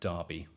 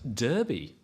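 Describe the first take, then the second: First: The first vowel sounds like in 'car'. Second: The first vowel sounds like in 'her'. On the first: This is how locals commonly say the name. "How many of you in here call that East Midland town" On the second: This follows the written form of the name. "surely it should be pronounced"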